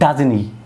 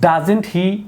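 First: The t sound in doesn't is dropped. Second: The t sound in doesn't is pronounced. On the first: "টিটাকে বাদ দেওয়া যাবে" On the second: "টি এর পর যদি vowel sound না তার টিটাকে বাদ দেওয়া যাবে"

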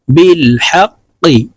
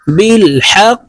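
First: The word ends with a short i vowel. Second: The word ends on a bounced q consonant. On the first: "قف زرقي" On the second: "قف কে ساكن করে ফেললে আমরা এইভাবে পড়ব।"

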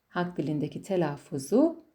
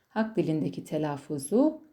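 No difference in how they are said.

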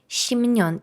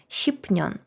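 First: An m sound comes before the n. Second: A p sound comes before the n. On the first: The speaker calls it right. "але в ідеалі то щімнян" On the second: The speaker calls it wrong. "Начебто не так погано"

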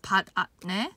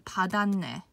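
First: The middle consonants are pronounced fully and harshly. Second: The middle consonants merge into a soft, smooth sound. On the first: The speaker calls it wrong. "it's a bit harsh to pronounce 받았네" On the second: The speaker calls it right. "compared to 받았네, okay? 받았네 sounds so much better"

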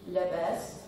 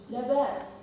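First: The word sounds low and unhappy. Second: The word sounds bright and content. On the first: The person is not okay. "The first one says that he's not okay" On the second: The person is okay. "Second one, you understand the best, it means he is okay"

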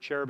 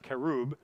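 First: The word begins with a 'ch' sound. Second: The word begins with a 'k' sound. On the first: This is the usual English way of saying it. The speaker calls it wrong. "cherub is their English pronunciation" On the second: This is the original way of saying it. The speaker calls it right. "but it's pronounced kerub"

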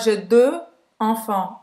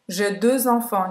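First: Deux and enfants are said without a z link. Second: A z sound links deux to enfants. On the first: The speaker calls it wrong. "Então não é" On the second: The speaker calls it right. "Você faz a ligação. Como se fosse um Z"

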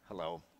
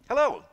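First: It sounds reluctant and slightly hostile. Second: It sounds chipper and welcoming.

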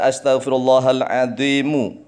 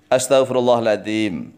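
First: The final word ends with an u vowel. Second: The final word ends on m, no vowel. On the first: "mu kalau seandainya dibaca lanjut" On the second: "memnya disukun"

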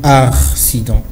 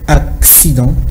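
First: The first syllable has an r sound. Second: The first syllable has a ks sound. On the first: The speaker calls it wrong. "on a l'habitude de mettre un R après le A" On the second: The speaker calls it right. "lorsqu'il y a deux C, hein, on a l'impression d'avoir un X"

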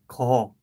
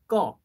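First: The first consonant is soft and lax. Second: The first consonant is tense and strong. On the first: The speaker calls it wrong. "instead of saying 거" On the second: The speaker calls it right. "you need to pronounce it stronger"

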